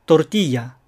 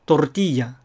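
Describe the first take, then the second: First: "トルティーヤ" as Spanish tortilla, r tapped; one tongue flick for the ル in トルティーヤ; short flapped r in トルティーヤ. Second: "トルティーヤ" as Spanish tortilla, r rolled; vibrating r in トルティーヤ; trilled r. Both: Shown as a demonstration. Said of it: "いずれで発音しても間違いではありません".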